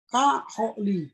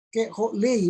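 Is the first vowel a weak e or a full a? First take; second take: full a; weak e. First: The first syllable has a full a vowel. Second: The first syllable has a weak e vowel. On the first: The speaker calls it right. "Tapi dia menjadi dibaca ka ho li" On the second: The speaker calls it wrong. "bacanya bukan jadi ke ho lei"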